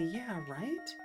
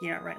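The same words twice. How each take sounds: First: It sounds sincere and agreeing. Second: It sounds sarcastic and mocking. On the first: The speaker truly agrees. "Like the genuine" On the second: The speaker does not believe it. "not like the sarcastic"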